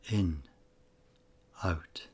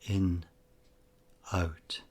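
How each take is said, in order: Both takes have the same delivery.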